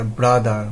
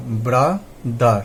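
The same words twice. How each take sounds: First: Said in the usual way. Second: ব্রাদার split slowly into bra, dar; syllable by syllable. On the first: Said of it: "যেখানে দুটো উচ্চারণ হবে". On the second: Shown as a demonstration. Teacher showing a two-syllable word, ব্রাদার said syllable by syllable. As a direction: say ব্রাদার in two parts with a gap between. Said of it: "একটা দুটো".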